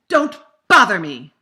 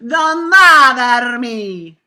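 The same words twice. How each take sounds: First: American accent, with hard, strong b and d consonants. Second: Italian accent, with long, open, stressed vowels. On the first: "in English I would say, ... because of my b and d" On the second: "If I were Italian speaking English, ... it would be all about my vowel"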